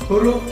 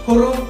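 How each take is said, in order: No difference in how they are said.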